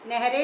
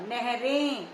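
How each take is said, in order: First: The final vowel is plain, not nasalized. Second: The final vowel is nasalized. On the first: The speaker calls it wrong. "नहरे नहीं होता" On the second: The speaker calls it right. "ए ये यहां बिंदी आनी है"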